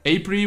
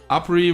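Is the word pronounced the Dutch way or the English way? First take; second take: English; Dutch. First: The word is pronounced with an English pronunciation. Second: The word is pronounced with a Dutch pronunciation. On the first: "Apri would be April in English" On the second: "Apri would be April in Dutch"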